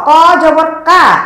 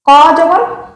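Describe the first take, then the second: First: The last syllable ends in a clear open 'a'. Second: The last syllable ends in a rounded 'o'. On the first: The speaker calls it wrong. "বলা যাবে না" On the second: The speaker calls it right. "বলতে হবে"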